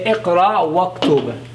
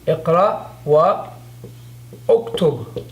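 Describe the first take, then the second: First: 'Wa' runs straight into 'qtub' without a glottal stop. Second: A glottal stop starts 'uktub' after 'wa'.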